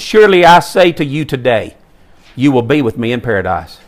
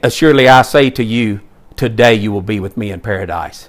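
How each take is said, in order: First: The pause comes after the word today. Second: The pause comes before the word today.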